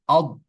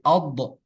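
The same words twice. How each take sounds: First: The final consonant stops cleanly without an echo. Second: The final consonant is released with a bouncing echo. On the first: The speaker calls it right. "Karena dia tidak memantul" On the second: The speaker calls it wrong. "nggak boleh"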